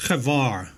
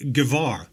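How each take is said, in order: First: "Guevara" retried with a throaty kh; "Guevara" with an Afrikaans-style guttural G; struggling pronunciation. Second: "Guevara" tried with a hard G; "Guevara" sounded out with an English G; struggling pronunciation. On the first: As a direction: attempt "Guevara" as khuh-VAR, rasped in the throat. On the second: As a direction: attempt "Guevara" as guh-VAR, hard G at the start. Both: Shown as a demonstration. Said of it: "I can't even pronounce this".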